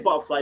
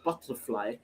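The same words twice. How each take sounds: First: The middle T sound is dropped. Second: The middle T sound is clearly pronounced. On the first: It is casual London working-class speech. "We don't pronounce the T's" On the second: It is standard speech. "instead of"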